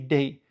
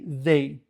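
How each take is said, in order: First: Said in a local Louisiana pronunciation. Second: Said in a general, non-local pronunciation. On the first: "In Louisiana, we say they" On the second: "we don't say they"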